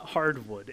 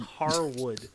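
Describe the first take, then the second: First: A d sound comes before "wood". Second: No d sound comes before "wood". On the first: The speaker calls it wrong. "it is not hardwood" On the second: The speaker calls it right. "It is Harwood"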